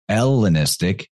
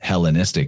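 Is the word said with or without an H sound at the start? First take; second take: without; with. First: It begins with no H sound. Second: It begins with an audible H sound.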